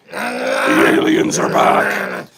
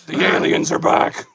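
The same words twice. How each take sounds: First: Very low, slow, eerie drone; spooky alien voice. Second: Airy ghostly whisper of the line; eerie whisper. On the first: Host warning viewers the aliens are back, deep eerie drone. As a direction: intone it like a monster from the deep. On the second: Host repeating the alien warning, ghostly whisper. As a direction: breathe it like a ghost. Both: Pretend.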